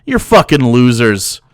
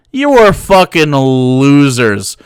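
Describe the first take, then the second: First: Said in the usual way. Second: Slow, emphatic "You are", every word landed; stress on "are". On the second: Real, not acted. Streamer scorning the Klan, slow emphatic "are". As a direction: spell out "are" slowly and firmly. Repeats the insult, second time emphatic.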